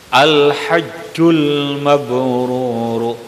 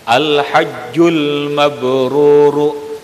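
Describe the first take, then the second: The two takes are said the same way.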